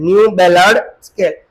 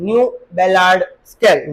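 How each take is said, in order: First: "New Ballard scale" repeated slowly and louder, every word spaced out; slow emphatic repeat. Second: Said in the usual way. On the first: Shown as a demonstration. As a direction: spell it out slowly for the class so it sticks.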